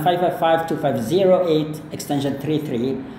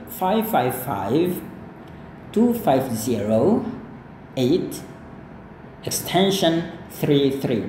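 First: The number is read out quickly. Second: The number is read out slowly. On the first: "banyak orang nggak bisa merekam itu semua dalam waktu yang sangat singkat" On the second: "dia pasti mengulangi kembali ini dengan lebih lambat"

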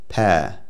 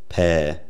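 First: The vowel has a much lower tongue position. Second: The vowel has a higher tongue position. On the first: This is the newer southeastern British pronunciation. "with a much lower tongue position on the vowel" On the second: This is the older pronunciation. "many speakers of southeastern British English today don't say"

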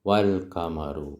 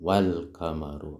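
Both takes have the same delivery.

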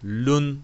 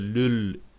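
First: The syllable ends with an n sound. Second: The syllable ends with an l sound. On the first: The speaker calls it wrong. "Lun değil" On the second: The speaker calls it right. "lül okunacaktır"

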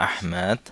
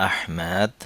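The two takes are said the same way.

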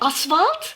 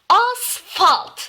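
First: The middle consonant is a v sound. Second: The middle consonant is an f sound. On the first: The speaker calls it wrong. "V ile değil" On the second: The speaker calls it right. "F ile"

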